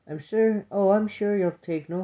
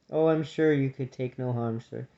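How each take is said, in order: First: Put-on higher-pitched young sister voice. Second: Said in the usual way. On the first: A narrator's reading. Young sister reassuring the grumpy cousin, high voice. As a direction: lift it high to soothe the old grumbler.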